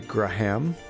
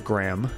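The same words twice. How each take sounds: First: The name does not sound like the word gram. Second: The name sounds just like the word gram. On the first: "I guess you could say Graham" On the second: "I always say it as Graham"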